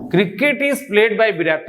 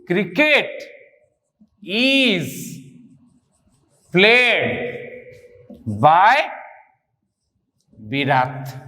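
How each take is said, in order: First: Said in the usual way. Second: Each word held alone between long pauses; word-by-word dictation. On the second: Real, not acted. Teacher writing the passive answer first, word-by-word dictation. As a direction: spell out the sentence slowly, word by word.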